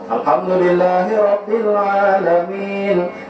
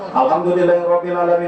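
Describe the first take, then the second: First: It is recited slowly and deliberately. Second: It is recited quickly, all in one breath. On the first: The prayer is performed properly. The speaker calls it right. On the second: The prayer is rushed. The speaker calls it wrong. "Kalau cepat, ... Al-Fatihah satu nafas"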